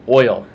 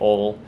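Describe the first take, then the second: First: The word is fully pronounced as oil. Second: The word is clipped to sound like ol. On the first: The speaker calls it right. "I usually try to pronounce that" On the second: The speaker calls it wrong. "country folk say"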